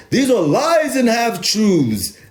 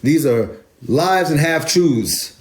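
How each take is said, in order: First: High, slow put-on English voice; English accent. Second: Said in the usual way. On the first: Shown as a demonstration. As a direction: draw it out in a mock English accent, pitched way up. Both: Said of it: "If I was to speak in my English voice".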